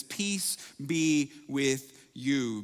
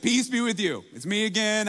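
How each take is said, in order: First: Drawn-out calm blessing; slow gentle greeting. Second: Higher and louder, bright reassurance; loud cheerful greeting. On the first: Jesus greeting the disciples, slow and calm. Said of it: "the same four-word message". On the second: Jesus reassuring startled disciples, higher and louder. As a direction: call it out brightly to calm a startled room. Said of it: "it was freaking everyone out". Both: Retold or imitated.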